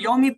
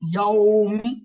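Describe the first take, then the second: First: The opening vowel is short and clipped. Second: The opening vowel is held for one extra beat. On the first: The speaker calls it wrong. "देखने में हम यौमी पढ़ते हैं" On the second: The speaker calls it right. "इसका सही तलफ़्ज़ ये यौमी"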